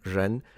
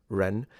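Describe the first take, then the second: First: The word begins with a buzzing French j sound. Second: The word begins with a plain r sound. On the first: "pronounce beginning R's as a R, like in ren" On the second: "instead of ren"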